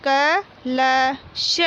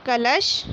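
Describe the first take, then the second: First: कलश drawn out very slowly as क-ल-श; slow syllable reading. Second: Said in the usual way. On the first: Shown as a demonstration. Teacher reading कलश aloud for pupils, very slowly. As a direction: sound out कलश one syllable at a time. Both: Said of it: "मौखिक बोलकर पढ़िए".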